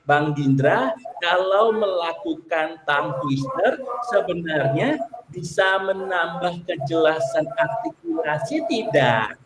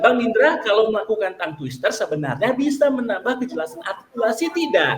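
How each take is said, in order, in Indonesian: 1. Kalimat itu dibaca dengan lambat. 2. Kalimat itu dibaca dengan cepat. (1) "Itu kan dari lambat tuh"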